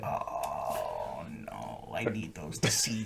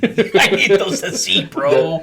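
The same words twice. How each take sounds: First: Very low, very soft lament; mock helpless murmur. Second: Higher, drawn out through laughter; laughing plea. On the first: Marine watching glasses snapped, mock helpless murmur. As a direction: barely voice the defeated protest. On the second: Retold or imitated. Marine retelling broken glasses, laughing mock plea. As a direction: stretch the plea while laughing. Repeats the line while laughing.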